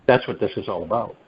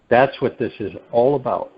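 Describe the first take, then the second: First: Said quickly, running the words together; quick passing statement. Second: "That's what this is all about" spaced out with more weight; "all about" given firm, measured emphasis; emphatic restatement. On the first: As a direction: state it briskly in one run. First saying, then repeated for emphasis. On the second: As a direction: lean on "That's" and "all", taking more time. Deliberate repeat for emphasis. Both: Real, not acted.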